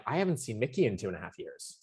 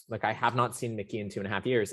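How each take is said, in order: First: Said in the usual way. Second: "not" pulled apart from "have" and hit hard, the rest quicker; stress on not. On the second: Retold or imitated. Telling a podcast host about seeing Mickey again, stressing "not". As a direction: lean into "not" and rush the words after it. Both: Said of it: "I literally am like".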